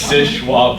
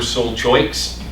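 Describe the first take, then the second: First: The name sounds like 'shush-wap'. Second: The name sounds like 'sol choyks'. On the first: The speaker is a local. The speaker calls it right. "make sure you pronounce it correctly ... it's Shuswap Point" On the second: The speaker is a visitor. The speaker calls it wrong. "If you say, hey, we're Sol Choiks, they know you're visiting"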